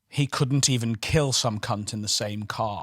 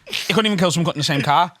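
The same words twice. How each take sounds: First: The line is said slowly and carefully. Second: The line is said very fast in one burst. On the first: A well-spoken person cannot say it quickly. "because Alfie talks very well" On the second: A Scouser can say it in half a second. "as a Scouser, it's half a second"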